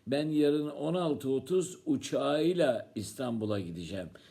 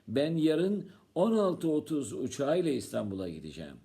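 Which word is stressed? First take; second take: uçağıyla; 16:30. First: The word 'uçağıyla' is stressed. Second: The time '16:30' is stressed. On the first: The trip is made by plane. "Sen yarın neyle gideceksin İstanbul'a?" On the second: The trip is at that particular time. "Sen saat kaçta gideceksin?"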